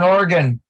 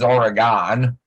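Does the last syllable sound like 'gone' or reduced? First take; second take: reduced; gone. First: The last syllable is short and reduced. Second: The last syllable sounds like 'gone'. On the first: The speaker calls it right. "I said it right for you" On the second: The speaker calls it wrong. "the common perception outside of that state is Oregon"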